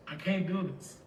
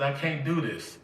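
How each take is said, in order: First: Much softer, almost breaking; hushed despairing refusal. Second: Said in the usual way. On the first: Retold or imitated. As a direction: let the repeat sink into a soft, defeated murmur.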